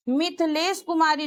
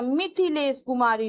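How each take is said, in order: First: मिथिलेश Kumari with a plain th in मिथिलेश; wrong form. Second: मिथिलेश said mith-hi-lesh with an aspirated th, lower pitch; correct form. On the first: Teacher naming the wrong spelling मिथिलेश Kumari to students. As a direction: say मिथिलेश with an unaspirated th, as the mistake. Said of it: "मिथिलेश कुमारी नहीं होता". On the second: Teacher giving students the correct मिथिलेश with an aspirated th. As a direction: breathe out on the th of मिथिलेश. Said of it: "मिथिलेश कुमारी होता है". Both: Shown as a demonstration.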